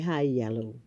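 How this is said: It is pronounced the non-Bahamian way. "We don't say high yellow"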